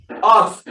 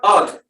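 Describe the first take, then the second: First: "Earth" with a breathy final th, no t; correct th. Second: "earth" said as "eart" with a hard t; "earth" with a final t instead of th; wrong t ending. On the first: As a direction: end "Earth" with th blown through the teeth. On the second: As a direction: end "earth" with a hard t, the mistake. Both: Shown as a demonstration. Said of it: "not earth".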